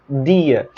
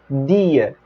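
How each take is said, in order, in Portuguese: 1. A primeira consoante é um d dental. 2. A primeira consoante é um d dental.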